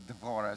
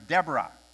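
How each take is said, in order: First: The middle consonant is a v sound. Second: The middle consonant is a b sound. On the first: "they don't have a B, they use a V, so Devorah" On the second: "I grew up thinking it was Deborah"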